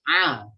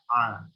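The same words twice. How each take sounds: First: The letter is sounded strongly and forcefully. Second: The letter is sounded plainly and lightly. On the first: "ada yang A-nya kuat" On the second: "Ada yang juga biasa"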